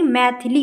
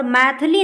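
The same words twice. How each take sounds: First: Said in the usual way. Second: मैथिली with the short i dropped after th; wrong pronunciation. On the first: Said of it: "मैथिली होता है". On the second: Shown as a demonstration. Teacher shows the misspelt word, mispronounced "maith-li". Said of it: "मैथिली नहीं".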